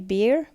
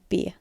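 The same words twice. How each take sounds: First: The final r sound is pronounced. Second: The final r is replaced by a vowel. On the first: "I say beer" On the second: "a Kiwi would say beer"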